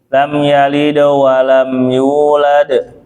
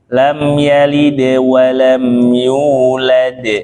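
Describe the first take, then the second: First: The dal is thick, without spread lips. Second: The dal is thin, with spread lips. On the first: The speaker calls it wrong. "enggak kayak gitu nyengir" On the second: The speaker calls it right. "kayak gitu nyengirnya seperti biasa antum nyengir"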